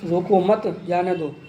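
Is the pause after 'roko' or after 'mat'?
after mat. There is a pause right after mat.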